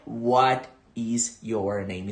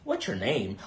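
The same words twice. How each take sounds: First: "What is your name" muito lento e separado; inglês de livro. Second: "What's your name" rápido e colado; fala nativa. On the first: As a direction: cada palavra bem articulada. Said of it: "Não é". (o jeito errado, da escola) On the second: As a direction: sussurrado e corrido, como nativo. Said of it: "e sim". (o jeito certo) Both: Shown as a demonstration.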